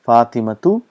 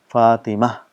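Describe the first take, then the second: First: The word ends with a full tu syllable. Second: The word ends with a soft h sound. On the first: The word is said on its own in full. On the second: The speaker stops on the word.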